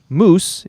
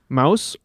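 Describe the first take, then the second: First: The name rhymes with goose. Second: The name rhymes with house. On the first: This is the American way to say it. "if you like a more American pronunciation" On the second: This is the European way to say it. "if you prefer the European set statement"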